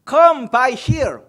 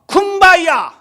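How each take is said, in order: First: The three words are said separately and clearly. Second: The words are run together into one word.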